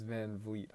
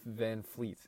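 First: "Van Vliet" with a V starting the second word; corrected name pronunciation. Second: "Van Fleet" with an F starting the second word; mistaken name pronunciation. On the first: Co-host shares the name just learned, "Van Vliet" with a V. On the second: Co-host admits an old mistake, "Van Fleet" with an F. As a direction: say "Van Fleet", unvoiced F like a naval fleet. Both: Shown as a demonstration. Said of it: "I thought it was Van Fleet".

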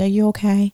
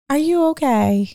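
First: Said in the usual way. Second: Incredulous high. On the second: Retold or imitated. Repeated question, incredulous.

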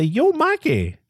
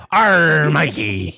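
First: Casual yo greeting. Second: Loud pirate arr; pirate greeting. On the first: Retold or imitated. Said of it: "I mean, not yo". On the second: Pretend. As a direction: growl his name like a pirate. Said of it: "I mean, not yo. Arr".

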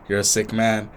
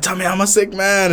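First: Flat quiet reply. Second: Put-on higher, louder drunk plea; drunk loud demand. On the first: Retold or imitated. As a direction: say it quietly and flatly. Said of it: "And he's like". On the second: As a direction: insist on it loudly like a drunk. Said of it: "and I was like".

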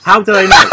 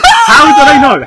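First: Laughing angry shout; raging gamer. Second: High, loud laughing outrage; raging gamer. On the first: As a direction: yell it in disbelief, half laughing. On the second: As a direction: scream it at full volume in disbelief. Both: Real, not acted. Outraged at the quiz answer.

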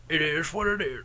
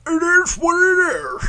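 First: Soft put-on voice. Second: High, drawn-out mock shout; put-on voice. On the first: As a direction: try the catchphrase in a quiet funny voice. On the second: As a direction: stretch the catchphrase in a silly high voice. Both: Shown as a demonstration. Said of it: "How about if I went".

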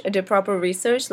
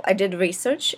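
First: "proper" leaned on as the added word; stress on proper. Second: Said in the usual way. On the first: Real, not acted. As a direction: push "proper" a little harder than the rest.

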